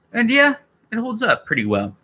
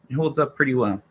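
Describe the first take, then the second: First: "holds up pretty well" lifted much higher in pitch; sing-song it up high, upbeat; high-pitched verdict. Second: Said in the usual way. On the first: Real, not acted. Streamer reviewing Star Wars to viewers, raised pitch.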